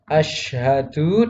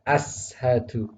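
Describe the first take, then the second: First: The first consonant is a sh sound. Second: The first consonant is a plain s sound. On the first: The speaker calls it right. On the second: The speaker calls it wrong.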